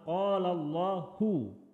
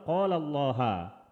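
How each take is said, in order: First: Allah ends with a u vowel. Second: Allah ends with an a vowel. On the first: The speaker calls it right. "kata Allah harus dibaca dhammah" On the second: The speaker calls it wrong. "Tidak boleh dibaca"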